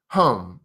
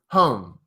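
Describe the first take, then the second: Both takes have the same delivery.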